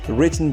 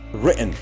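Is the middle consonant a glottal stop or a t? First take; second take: t; glottal stop. First: The middle consonant is a clear t sound. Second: The middle consonant is a glottal stop.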